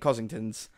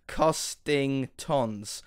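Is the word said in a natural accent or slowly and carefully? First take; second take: accented; careful. First: The word is said quickly in a regional accent. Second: The word is said slowly with every syllable clear. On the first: "with my accent it ends up being Costingtons" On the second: "if you read it slowly and properly, it says Costingtons"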